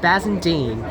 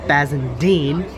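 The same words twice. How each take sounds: First: The last syllable is said on a level pitch. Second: The last syllable goes up in pitch. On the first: "it is not Bassendean" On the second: "it's Bassendean upwards"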